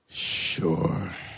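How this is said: It sounds reluctant and unwilling.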